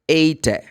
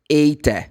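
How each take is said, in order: First: The final E is sounded as a vowel. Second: The same.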